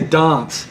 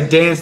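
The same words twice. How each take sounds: First: Said the way people in Adelaide say it. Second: Said in the speaker's own usual Australian accent. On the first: "They say dance" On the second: "so I say dance"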